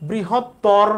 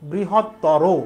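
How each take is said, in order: First: The word ends on the r sound. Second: The word ends with an o vowel. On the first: The speaker calls it wrong. "বৃহত্তর না" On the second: The speaker calls it right. "রয়ের সাথে ও লিখতে হবে"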